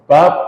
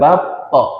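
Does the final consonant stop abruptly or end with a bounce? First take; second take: abrupt; bounce. First: The final consonant is held and stops abruptly. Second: The final consonant is released with a bouncing echo. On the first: The speaker calls it wrong. "enggak bat, tidak seperti itu ... karena dia anginnya itu kekunci" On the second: The speaker calls it right. "maka balik"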